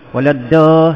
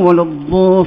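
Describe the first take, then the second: First: The 'dh' consonant is said thin and light. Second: The 'dh' consonant is said thick and heavy. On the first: The speaker calls it wrong. "sebut huruf dha nipis?" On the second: The speaker calls it right. "semua betul sebut"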